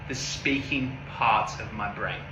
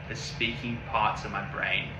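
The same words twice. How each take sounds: No difference in how they are said.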